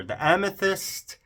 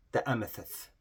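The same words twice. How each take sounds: First: Higher, louder, slower and savoured; excited. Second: Said in the usual way. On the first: Real, not acted. Showing viewers her amethyst swatch, excited and gushing. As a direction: gush over the name, thrilled. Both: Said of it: "Sorry, I got really excited here".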